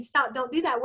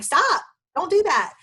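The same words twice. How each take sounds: First: Said in the usual way. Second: Higher, louder sharp "Stop, don't do that"; exasperated snap. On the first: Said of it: "instead of just saying". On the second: Retold or imitated. Mother to her wild kids, a sharp higher, louder scold. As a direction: bark it like a fed-up parent cutting off wild kids. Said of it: "And I'm like".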